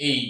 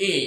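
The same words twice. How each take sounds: First: "এই" as a gliding vowel, ay-ee; teacher models "এই" as a diphthong; correct letter sound. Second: Plain "এ" as many say it; common mispronunciation. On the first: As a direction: say "এই" with a clear glide into i. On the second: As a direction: say "এ" as one simple vowel, without a glide. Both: Shown as a demonstration. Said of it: "আসলে এটা সঠিক উচ্চারণ কি".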